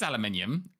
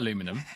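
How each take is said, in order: First: It is said with five syllables, -ium ending. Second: It is said with four syllables, -um ending. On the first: The speaker calls it right. "it is aluminium. there is an I in there" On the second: The speaker calls it wrong. "It is not aluminum"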